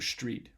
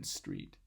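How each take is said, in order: First: The first sound is pronounced like sh. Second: The first sound is pronounced like s. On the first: "they pronounce that S as a sh" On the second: "rather than"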